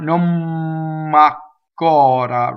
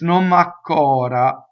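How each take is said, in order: First: The M sound is held long, doubled. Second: The M sound is short and smooth, single. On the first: The speaker calls it wrong. "by no means it's a double M. It's not non macora" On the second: The speaker calls it right. "It's non macora. Very, very smooth"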